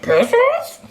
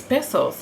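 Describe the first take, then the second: First: High, loud cartoon dog asking in disbelief; Scooby-Doo voice. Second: Said in the usual way. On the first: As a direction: squeak it like a baffled cartoon dog. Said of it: "my Scooby-Doo voice". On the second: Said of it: "And then he says".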